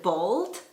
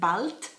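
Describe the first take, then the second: First: It is pronounced the English way. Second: It is pronounced the German way. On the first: It means having no hair. "In English, we would pronounce it bald" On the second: It means soon. "but in German, you pronounce it bald"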